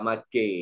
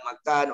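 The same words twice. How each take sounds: First: It is said in a Kelantanese accent. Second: It is said in a Singapore Malay accent. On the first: "orang Kelantan cakap makan" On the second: "Orang Melayu Singapura cakap makan"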